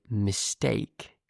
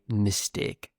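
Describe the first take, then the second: First: Standard British "mistake", second vowel gliding from "eh" to "ee"; standard British accent. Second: Northern English "mistake", second vowel a pure "eh" with no glide; northern English accent. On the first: Teacher models it for English learners, standard British pronunciation. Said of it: "use the standard British pronunciation". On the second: Teacher from the north of the UK shows learners, northern English accent. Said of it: "If you want to say it like me". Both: Shown as a demonstration.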